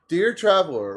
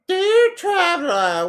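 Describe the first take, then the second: First: It is said in his ordinary speaking voice. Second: It is said in a put-on female voice. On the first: "I'm just gonna do a normal voice" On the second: "I am not good at doing a female voice"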